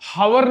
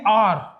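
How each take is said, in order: First: The word starts with an audible h sound. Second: The word starts directly with a vowel sound. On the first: The speaker calls it wrong. "हावर नहीं बोलते हो" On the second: The speaker calls it right. "Focus आपकी sound का ओ पे है"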